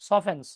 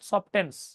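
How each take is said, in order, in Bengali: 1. মাঝের t নীরব। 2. মাঝের t উচ্চারিত হয়। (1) "ওটার উচ্চারণ কিন্তু সফটেন না, সফেন্স" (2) "নট সফটেন্স"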